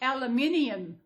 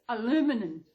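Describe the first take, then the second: First: It is said with an Australian pronunciation. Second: It is said with an American pronunciation. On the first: "It's actually aluminium" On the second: "It took take me a while to get used to aluminum"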